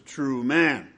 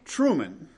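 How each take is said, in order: First: It is said slowly as two words. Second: It is said quickly as one word. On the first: It means a man who is truly human. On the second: It is the title of a movie.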